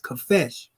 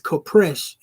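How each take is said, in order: First: The word has no r sound in it. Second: The word has an r sound after the p. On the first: The speaker calls it right. "Ain't no R in there" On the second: The speaker calls it wrong. "Smash pronounced it as Kopresh, and he was wrong"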